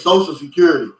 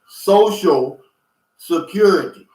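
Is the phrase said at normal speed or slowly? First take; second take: normal; slowly. First: The phrase is said quickly at normal speed. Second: The phrase is said slowly, word by word. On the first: "We always say Social Security" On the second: "when you say it slow like that"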